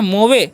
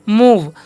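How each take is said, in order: First: It is read as two syllables ending in a vowel. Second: It is one syllable with a long oo, ending in v. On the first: The speaker calls it wrong. "नहीं" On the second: The speaker calls it right. "ई का उच्चारण नहीं होगा"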